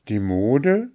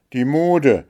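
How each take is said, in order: First: "Die Mode" as a rising question; astonished, questioning "Die Mode", pitch climbing at the end; disbelieving exclamation. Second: "die Mode" louder and higher, falling firmly; name "die Mode" as the culprit; indignant, accusing statement of "die Mode"; angry naming. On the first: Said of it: "rief Märchen". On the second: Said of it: "der Zorn rötete ihre Wangen". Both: A narrator's reading.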